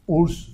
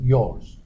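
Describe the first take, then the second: First: The word starts with a vowel, no y. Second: The word starts with a clear y sound. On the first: The speaker calls it wrong. "we don't pronounce that urs" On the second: The speaker calls it right. "we pronounce that yours"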